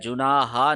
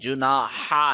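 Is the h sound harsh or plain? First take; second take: plain; harsh. First: The h is a soft, plain breath. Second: The h is sharp and made in the throat. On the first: The speaker calls it wrong. "जुनाहा नहीं है" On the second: The speaker calls it right. "हा को शार्प करें हल्क के दरमियान से"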